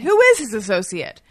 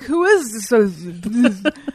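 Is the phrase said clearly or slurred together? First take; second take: clearly; slurred. First: The words are said clearly and separately. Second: The words are slurred together, as if drunk. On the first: The speaker calls it right. "Now I can say it" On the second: The speaker calls it wrong. "But it was like"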